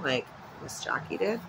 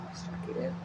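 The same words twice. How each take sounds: First: Said in the usual way. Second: Soft whispered echo. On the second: Shown as a demonstration. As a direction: whisper the name back to yourself. Echoes name as a whisper.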